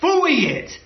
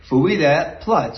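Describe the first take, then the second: First: It is said louder and more forcefully. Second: It is said in an everyday, calm tone.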